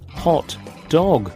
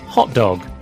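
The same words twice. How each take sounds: First: Both words get equal stress. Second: The stress falls on the first word.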